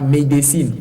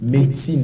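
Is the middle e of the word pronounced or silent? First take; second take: pronounced; silent. First: The middle e is pronounced as a full syllable. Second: The middle e is silent, leaving two syllables. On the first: The speaker calls it wrong. "On ne dit pas également médecine" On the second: The speaker calls it right. "on dit médecine. Le E là ne se lit pas"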